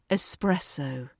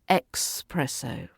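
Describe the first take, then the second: First: The first syllable sounds like ess. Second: The first syllable sounds like ex. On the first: The speaker calls it right. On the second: The speaker calls it wrong. "they're saying expresso"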